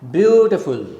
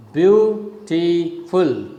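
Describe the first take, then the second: First: "Beautiful" with a loud first syllable, falling away; falling rhythm. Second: "beautiful" slowly split as beau-ti-ful; three separate syllables. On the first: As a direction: punch the start of "Beautiful", let the rest drop. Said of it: "it's a falling rhythm". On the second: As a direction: break "beautiful" into three slow, separate beats. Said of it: "three syllables". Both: Shown as a demonstration.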